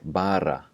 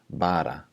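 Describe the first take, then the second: First: The R is rolled with several quick taps. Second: The R is a single light tap. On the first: "pronounced with the trilled R" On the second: "the flapped R ... just like a tap on the top of your mouth"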